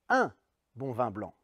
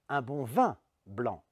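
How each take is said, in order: First: The stress is on the word un. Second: The stress is on the word vin. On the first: The quantity matters: just one. "La première fois, j'appuie sur un" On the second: Wine is wanted and nothing else. "c'est du vin que je veux et pas autre chose"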